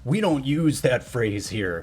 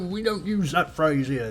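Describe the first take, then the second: First: It is said in the speaker's ordinary accent. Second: It is said in a put-on British accent.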